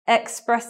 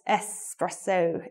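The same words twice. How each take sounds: First: The word begins with an 'eks' sound. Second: The word begins with an 'es' sound. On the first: The speaker calls it wrong. "A lot of people do the pronunciation with X" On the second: The speaker calls it right. "more elegant to um, pronounce this word with the S"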